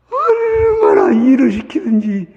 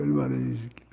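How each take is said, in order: First: Slow, high, loud cry of how hard they worked; a slow high shout of dismay; shouted exclamation. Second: Quiet repeat. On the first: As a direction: belt it out in outrage. Preacher retells old man's hell. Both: Retold or imitated.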